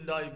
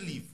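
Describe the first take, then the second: First: The vowel sounds like the word 'eye'. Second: The vowel is short, like 'ih'. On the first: It is an adjective meaning live or alive. "دیدی مثلا میگه لایو گذاشته، ... اگر در قالب ادجکتیو باشه" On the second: It is a verb meaning to live. "ولی اگر ورب بود میشه لیو. تلفظش فرق داره"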